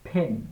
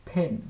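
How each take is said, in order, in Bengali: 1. প্রথম ব্যঞ্জনে বাতাসের একটা ফুঁ আছে। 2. প্রথম ব্যঞ্জনে বাতাসের একটা ফুঁ আছে।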